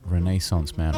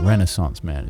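First: Renaissance is pronounced in a non-American way. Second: Renaissance is pronounced the American way.

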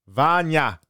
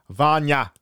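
Both takes have the same delivery.

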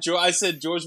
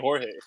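First: The name is said with an English J sound. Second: The name is said with a Spanish throaty J. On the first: The speaker calls it wrong. "I said George with a J" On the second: The speaker calls it right. "instead of saying Jorge"

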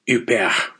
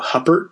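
First: The name is said with a French pronunciation. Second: The name is read the English way, as spelled. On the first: The speaker calls it right. "the correct pronunciation might be something like Huppert" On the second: The speaker calls it wrong. "because that's how you spell her last name"

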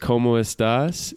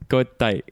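First: Every syllable is said in full, final s kept. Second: It is clipped into two syllables, no final s. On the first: "everyone knows como estás" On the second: "In Chile, it's cotai"

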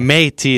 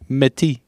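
First: The first vowel sounds like 'ay'. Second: The first vowel sounds like 'eh'. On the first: "The accent aigu gives the E sound an A sound" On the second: "instead of"

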